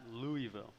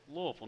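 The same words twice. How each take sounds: First: The name is said fully and clearly. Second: The name is mumbled and reduced. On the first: The speaker calls it wrong. "You can't say Louisville" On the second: The speaker calls it right. "say Louisville like it's a mouthful of marbles"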